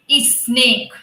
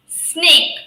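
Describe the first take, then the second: First: An extra vowel sound comes before the s. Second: The word starts directly with a hissing s. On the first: The speaker calls it wrong. "generally people pronounce it uh, it like this" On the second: The speaker calls it right. "how the snakes you know sound s, s, like this"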